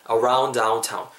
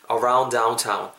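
First: "around downtown" joined with a single d; smoothly linked "around downtown"; linked words. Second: "around downtown" with the first d released separately; "around downtown" word by word, "aroun-duh downtown"; unlinked words. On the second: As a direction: sound both d's in "around downtown". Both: Shown as a demonstration. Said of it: "정도로 붙습니다".

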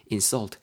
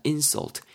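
First: "insult" stressed on SULT; stress on last syllable. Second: "insult" stressed on IN; stress on first syllable. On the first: Teacher contrasts verb with noun, "insult" stressed on SULT. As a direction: lean on the end of "insult", in-SULT. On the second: Teacher contrasts noun with verb, "insult" stressed on IN. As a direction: lean on the IN of "insult", IN-sult. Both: Shown as a demonstration. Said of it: "차이 구분해 놓으시면서".

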